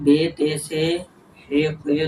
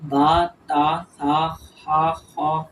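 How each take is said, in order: First: The letter names end in an Urdu 'e' vowel. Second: The letter names end in an Arabic 'a' vowel. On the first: The speaker calls it wrong. "Urdu तलफ़ुज़ से परहेज करें यानी बे ते से हे खे तोए रोए वगैरह हरगिज़ ना पढ़ें" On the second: The speaker calls it right. "बल्कि बा ता सा हा खा वा वा पढ़ें यानी अरबी लहजे में पढ़ना है"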